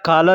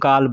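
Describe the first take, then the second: First: The word begins with a k-like sound. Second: The word begins with a g sound. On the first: This is how the word is written. "या काला लिखा जाएगा" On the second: This is how people actually say it. "बोलने के लिए लोग गाल बोलते हैं"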